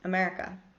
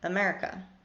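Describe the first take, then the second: First: The unstressed vowels are reduced to schwa. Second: The unstressed vowels are reduced to schwa.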